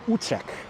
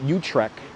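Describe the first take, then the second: First: The name is said in original Dutch style. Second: The name is said in local Brooklyn style. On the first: The speaker calls it right. "Its correct pronunciation is Utrecht" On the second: The speaker calls it wrong. "That's how we pronounce it here in Brooklynese"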